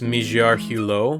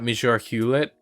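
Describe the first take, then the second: First: The surname ends in an 'oh' vowel without t. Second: The surname sounds like English 'Hewlett' with final t. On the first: The speaker calls it right. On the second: The speaker calls it wrong. "I'm pretty sure it's not"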